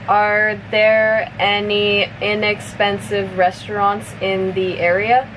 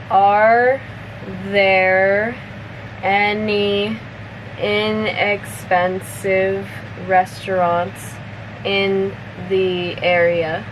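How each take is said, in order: First: The sentence is spoken at medium speed. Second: The sentence is spoken slowly. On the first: "a little bit faster" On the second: "I'll say it slowly first"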